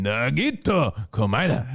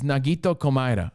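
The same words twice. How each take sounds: First: The name is said with exaggerated Asian-style emphasis. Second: The name is said plainly, in an ordinary voice.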